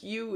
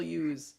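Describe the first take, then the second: First: Said in the usual way. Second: "yous" said with a final z; dialect plural. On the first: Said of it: "is not a plural thing". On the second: Shown as a demonstration. Objecting to the northern plural, "yous" ending in z. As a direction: add a z to you, "yous". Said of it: "There are not plural".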